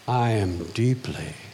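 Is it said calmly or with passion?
calmly. It is said calmly, without strong feeling.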